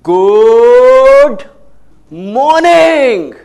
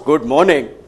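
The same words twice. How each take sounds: First: It is said in a lively, rhythmic way. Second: It is said in a dull, flat way.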